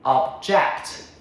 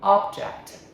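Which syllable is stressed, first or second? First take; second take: second; first. First: The stress is on the second syllable. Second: The stress is on the first syllable. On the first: It is used as a verb. "as a verb, to disagree. Second syllable" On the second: It is used as a noun. "As a noun, a same first syllable"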